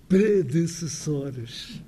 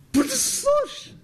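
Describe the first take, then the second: First: Predecessores said very slowly with every vowel, pɾedɨsɨsoɾʃ; full careful form. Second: Predecessores high and slow, said pruðɨssoɾʃ with vowels dropped; clipped European form. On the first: Lecturer shows the careful form nobody really uses. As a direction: sound out each vowel of Predecessores. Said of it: "Mas ninguém fala assim". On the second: Lecturer repeats the clipped form to the puzzled Brazilian. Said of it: "Um brasileiro não tem a mínima ideia". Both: Shown as a demonstration.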